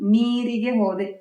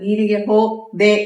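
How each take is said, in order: First: The last word is said whole without a break. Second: The last word is split by a break inside. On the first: The speaker calls it right. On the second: The speaker calls it wrong.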